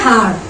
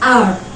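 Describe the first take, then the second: First: The word starts with an h sound. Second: The word starts with a vowel, no h. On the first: The speaker calls it wrong. "కొందరు హార్" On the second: The speaker calls it right. "ఇక్కడ హెచ్ అనేది silent. So actual దీని pronunciation వచ్చేసి ఆర్ ఆర్"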